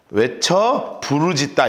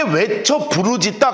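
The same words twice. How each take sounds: First: 외쳐 부르짖다 said slowly, each word weighted; slow emphatic 외쳐 부르짖다; emphatic stress. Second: Said in the usual way. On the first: Shown as a demonstration. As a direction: lean on 외쳐 부르짖다 deliberately. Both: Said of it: "외쳐 부르짖다 이거예요".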